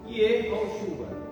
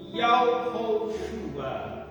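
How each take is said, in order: First: The first syllable is said with an 'eh' vowel. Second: The first syllable is said with an 'ah' vowel. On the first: It follows the way theologians say it. "fala do jeito que os teólogos falam" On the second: It follows a reading found in an ancient scroll. "Yao, em vez de ser Ye, Yao"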